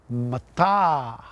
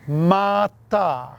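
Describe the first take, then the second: First: Only the second vowel is long. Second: Both vowels are long. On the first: It means obsidian. "if you put a macron over the second A" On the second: It means heap. "if you place a macron over both A's"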